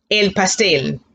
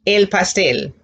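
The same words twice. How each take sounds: The two takes are said the same way.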